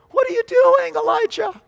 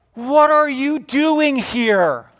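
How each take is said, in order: First: Very high, squeaky incredulous voice; mock-astonished falsetto cry; falsetto questioning. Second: High, loud, slow demand; God calling someone to account; booming challenge. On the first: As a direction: leap into falsetto to question him. God's question replayed in falsetto. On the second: Acted. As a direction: stretch out a pointed question from the pulpit. God challenges Elijah, acted by preacher.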